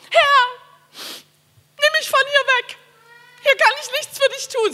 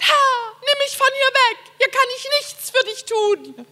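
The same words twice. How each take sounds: First: High, loud, slow theatrical wail; hammy stage actor. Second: High, wailing mock lament; hammy stage actor. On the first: Shown as a demonstration. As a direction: ham it up like a tragic actor. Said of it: "Ich kann sehr theatralisch beten". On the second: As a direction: whine it out like a stage drama. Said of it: "hab ich mal so vor Gott gejammert".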